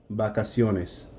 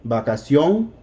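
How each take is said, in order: First: Vacaciones said softer, falling away at the end; without the accent. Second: Vacación with stress on the final "ción", rising; accented last syllable. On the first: Teacher contrasting plural with singular, vacaciones unaccented and falling. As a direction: let vacaciones drop, no punch on the last syllable. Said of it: "here's not". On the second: Teacher contrasting singular with plural, Vacación accented on its last syllable. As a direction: lift the end of Vacación on "ción". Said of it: "Here's the accent". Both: Shown as a demonstration.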